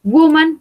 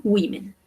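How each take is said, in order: First: "Woman" said WOO-man, high and loud; "Woman" opened on a strong U; U sound in woman. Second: "women" said WEE-men, falling; "women" with its O turned to I; I sound in women. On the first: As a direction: punch "Woman" with an oo first vowel. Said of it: "la pronunciación es con U". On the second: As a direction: give "women" an ee first vowel. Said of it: "se va a pronunciar como una I". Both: Shown as a demonstration.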